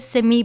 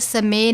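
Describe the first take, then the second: First: The word ends with an 'ee' vowel. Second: The word ends with an 'ay' vowel. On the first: The speaker calls it right. "बल्कि समी पढ़ना है, आवाज़ नीचे की जानिब लानी है" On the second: The speaker calls it wrong. "इसको समय नहीं पढ़ना"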